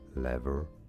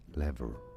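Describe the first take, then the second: First: It is said with an American accent. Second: The same.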